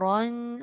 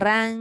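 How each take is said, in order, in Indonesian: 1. Suku katanya berat dengan vokal bulat. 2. Suku katanya ringan dengan vokal terbuka. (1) "Ha, gitu" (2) "Jangan rang"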